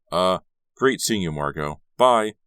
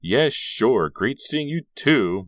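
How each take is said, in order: First: Hesitant start, then louder bye; awkward goodbye. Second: Loud, high, drawn-out farewell; calling after. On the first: Carrie leaving Margot in confusion, awkward farewell. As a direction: get out of the conversation awkwardly. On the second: Margot to departing Carrie, calling after him. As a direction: call it slowly to someone walking off. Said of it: "Margot called after him". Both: A narrator's reading.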